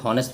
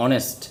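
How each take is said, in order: First: "হনেস্ট" with the initial h sounded; wrong pronunciation. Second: "অনেস্ট" with the h silent; correct pronunciation. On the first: Teacher shows students how not to say honest, wrong pronunciation. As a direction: start "হনেস্ট" on an audible h. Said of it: "এটা কিন্তু হনেস্ট না". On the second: Teacher corrects students' honest, correct pronunciation. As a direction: begin "অনেস্ট" straight on the vowel o. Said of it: "এটা হবে অনেস্ট". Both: Shown as a demonstration.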